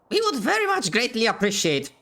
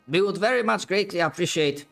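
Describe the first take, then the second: First: It is spoken in a strained high-pitched voice. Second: It is spoken in a normal natural voice.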